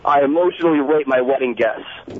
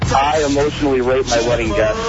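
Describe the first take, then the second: First: It is said with strong conviction. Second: It is said flatly, without conviction.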